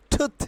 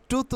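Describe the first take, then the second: First: টুথ opening on aspirated T; short, puffed T in টুথ; corrected pronunciation. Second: টুথ with a puffless T; wrong-way example. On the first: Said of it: "এটা হবে". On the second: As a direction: say টুথ with plain unaspirated T. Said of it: "উচ্চারণ হবে না". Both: Shown as a demonstration.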